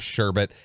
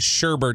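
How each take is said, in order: First: The second syllable has no R sound. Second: The second syllable has an extra R sound. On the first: The speaker calls it right. "There's no second R" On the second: The speaker calls it wrong. "They'll say sherbet"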